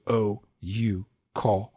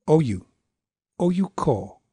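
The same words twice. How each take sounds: First: "Oh, you, ko" in equal, drawn-out beats; "Oh, you, ko" scanned stiffly, all long; rigid three longs. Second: "Oh, you" run together short, then "ko"; "Oh, you, ko" as short, short, long; two shorts. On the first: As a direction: space out Oh, you, ko as separate long syllables. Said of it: "you're not gonna go". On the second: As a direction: clip Oh, you quickly into a longer ko. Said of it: "you might have two shorts there". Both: Shown as a demonstration.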